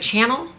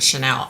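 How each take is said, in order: First: Channel said like the English word, stress on the first syllable, CHAN-nel; name guessed as Channel. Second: Chanel said the French way, shuh-NEL, stress on the end; name guessed as Chanel. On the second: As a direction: Chanel with the stress moved to the last syllable. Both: Shown as a demonstration. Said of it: "C H A N E L?".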